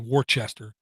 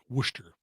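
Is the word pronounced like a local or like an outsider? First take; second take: outsider; local. First: It is pronounced the way an outsider would. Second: It is pronounced the way locals say it. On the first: The speaker is not from the area. The speaker calls it wrong. "sound like an idiot or like some kind of foreigner" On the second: The speaker knows the area. The speaker calls it right. "all the locals pronounce it Worcester"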